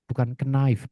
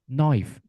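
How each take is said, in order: First: The K sound is pronounced at the start. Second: The K sound is left silent at the start. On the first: The speaker calls it wrong. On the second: The speaker calls it right. "Contohnya tanpa K semua"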